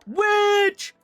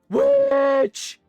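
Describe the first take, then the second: First: It is said in a plain, ordinary voice. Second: It is said in a deeper, more forceful voice.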